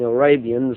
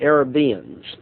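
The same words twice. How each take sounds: First: The word is pronounced in the usual way. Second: The word is pronounced in an odd, garbled way. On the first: The speaker calls it right. "instead of saying Arabians" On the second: The speaker calls it wrong. "I said Arabians"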